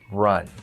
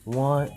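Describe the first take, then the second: First: The word begins with a clear R sound. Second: The word begins with a W-like sound. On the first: The speaker calls it right. "Now I can say my R's perfectly" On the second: The speaker calls it wrong. "I used to say"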